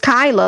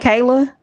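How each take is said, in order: First: The first vowel sounds like 'eye'. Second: The first vowel sounds like 'ay'. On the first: The speaker calls it right. "it's Kyla, like Kyla Pratt" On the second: The speaker calls it wrong. "they keep saying Kayla"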